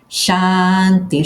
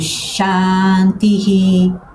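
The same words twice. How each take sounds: First: The word ends plainly on the vowel i. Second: The word ends with an added echoed 'hi' sound.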